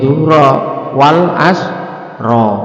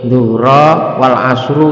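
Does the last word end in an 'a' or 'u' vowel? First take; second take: a; u. First: The last word ends with an 'a' vowel. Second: The last word ends with a 'u' vowel. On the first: The speaker calls it right. "Lak sadurunge dhuhra wal asra" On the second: The speaker calls it wrong. "gak boleh ... ya salah"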